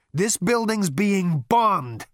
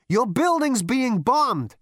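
First: Slow, high alarmed cry; panicked shout. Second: Slow high shout in his ear. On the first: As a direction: yell it as the roof shakes. First bombing cry. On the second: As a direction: lean in and shout it. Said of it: "shouted in his ear". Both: Acted.

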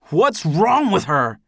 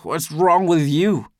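First: Slow, high, loud angry roar. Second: Slow, high, loud mocking echo. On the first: Demanding answers about Amy, roaring. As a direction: roar the question, stretching it out. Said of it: "I roar". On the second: Drunk Eldest echoing his accuser, loudly mocking. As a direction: throw the roar back as mockery. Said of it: "still mocking". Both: A narrator's reading.

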